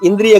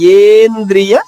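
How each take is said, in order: First: The word begins with a short 'i' vowel. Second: The word begins with a long 'e' vowel. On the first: The speaker calls it wrong. "ఇంద్రియ కాదు" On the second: The speaker calls it right.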